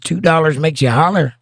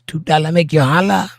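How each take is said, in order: First: It is said in the speaker's normal voice. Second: It is said in a put-on foreign accent.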